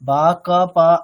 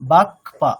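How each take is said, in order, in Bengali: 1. k ধ্বনিটি আলাদা হয়ে নিজের আলাদা একটি সিলেবল হয়ে যায়। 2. k ধ্বনিটি প্রথম সিলেবলের সাথে যুক্ত থাকে। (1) "বা ক পা এরকম না" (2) "যুক্তাক্ষর হিসেবে আছে"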